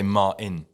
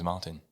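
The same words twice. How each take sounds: First: The T in the middle is dropped. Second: The T in the middle is clearly pronounced. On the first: The speaker calls it wrong. "if I'm lazy, I don't do the T" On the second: The speaker calls it right. "Yeah, the T"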